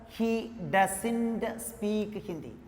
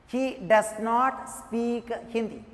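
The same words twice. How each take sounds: First: "doesn't" joined into one word, said slowly; contracted form. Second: "does" and "not" as two separate words; uncontracted form. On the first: Teacher showing the spoken English form, "doesn't" contracted. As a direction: run "does" and "not" together as "doesn't", unhurried. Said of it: "But in spoken English". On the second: Teacher showing the written English form, "does not" uncontracted. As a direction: say "does not" in full, each word distinct. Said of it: "use this method in written English". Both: Shown as a demonstration.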